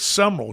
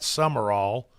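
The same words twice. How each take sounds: First: Said differently from the broadcaster's surname. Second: Said the same way as the broadcaster's surname. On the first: The speaker calls it right. "It's Summerall" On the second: The speaker calls it wrong. "You don't pronounce it like Pat Summerall"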